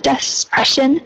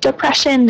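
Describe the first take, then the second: First: An extra s sound comes before the p. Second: There is no s sound before the p. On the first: The speaker calls it wrong. "instead of despression" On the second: The speaker calls it right. "depression instead of despression"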